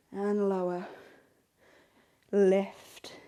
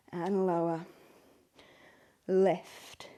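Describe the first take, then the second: No difference in how they are said.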